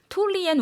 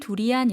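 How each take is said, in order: First: The word begins with a t sound. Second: The word begins with a d sound. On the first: This is how it is said in Thai. "태국어로서는 투리안이라고 발음했습니다" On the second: This is how it is said in Korean. "우리나라 말로는 두리안 이렇게 발음하는데요"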